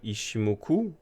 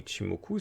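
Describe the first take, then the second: First: The middle consonant sounds like 'sh'. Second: The middle consonant sounds like 'tch'. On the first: The speaker calls it wrong. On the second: The speaker calls it right.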